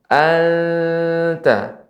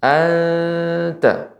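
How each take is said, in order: First: Anta with a heavy, dark ta, voice raised; thick anta, wrong. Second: Anta with a light, clear thin ta. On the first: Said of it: "Nggak boleh tebal". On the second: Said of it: "Namun tipis". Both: Shown as a demonstration.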